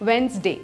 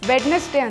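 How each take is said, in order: First: The D sound is left out of the middle. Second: The D sound is pronounced in the middle. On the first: The speaker calls it right. "ಇಲ್ಲಿ ಡಿ silent" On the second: The speaker calls it wrong. "ಅದು wrong"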